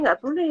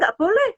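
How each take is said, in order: First: It is said in a low, soft voice. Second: It is said in a high, loud voice. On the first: The child hears the message without being startled. The speaker calls it right. "Eh gitu kan sudah turun tuh" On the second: The child is startled by the scolding. The speaker calls it wrong. "Nah itu kan nadanya tinggi banget"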